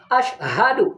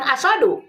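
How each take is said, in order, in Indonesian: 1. Bagian tengahnya sh diikuti h yang berdesah. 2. Bagian tengahnya s biasa tanpa h. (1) "Harusnya kan ash ha ash ha" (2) "Bukan asadu ya"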